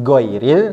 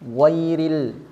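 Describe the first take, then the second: First: The first consonant is a hard stopped g. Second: The first consonant flows smoothly without breathiness. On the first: The speaker calls it wrong. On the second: The speaker calls it right.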